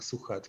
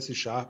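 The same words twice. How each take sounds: First: The name is pronounced the German way. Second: The name is pronounced the French way. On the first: "vorher haben sie auch 30 Jahre lang Suchard geheißen" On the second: "Suchard macht langsam jetzt Werbung"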